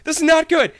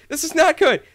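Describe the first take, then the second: No difference in how they are said.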